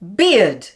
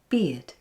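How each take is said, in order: First: The word is articulated in a big, exaggerated way. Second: The word is articulated in a small, subdued way. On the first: "Make it big" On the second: "Now small, like this"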